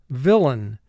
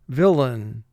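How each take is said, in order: Both takes have the same delivery.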